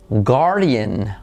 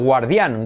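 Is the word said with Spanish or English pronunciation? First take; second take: English; Spanish. First: It is pronounced the English way. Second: It is pronounced the Spanish way. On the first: "cómo se pronunciaría guardián, que sería, fijaros" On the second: "como en español"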